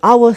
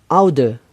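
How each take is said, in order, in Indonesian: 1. Bunyi d di tengah diganti dengan bunyi w. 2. Bunyi d di tengah diucapkan dengan jelas.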